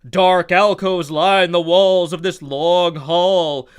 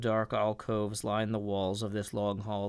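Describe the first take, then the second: First: It is read dramatically, in a booming narrator voice. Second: It is read flatly, with low energy and mumbling. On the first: The speaker calls it right. "the narrator from the Super Friends voice" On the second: The speaker calls it wrong. "I'm a low energy dungeon master"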